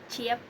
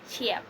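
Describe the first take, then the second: Both takes have the same delivery.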